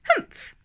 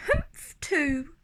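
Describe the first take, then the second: First: A grumpy, scornful snort of a word; sour humph. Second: Much higher, tiny copycat humph; little kangaroo echo. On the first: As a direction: huff it out like a sour kangaroo. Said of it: "humphed a voice". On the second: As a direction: squeak it back like a baby joey. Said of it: "the young kangaroo in her pouch said". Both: Acted.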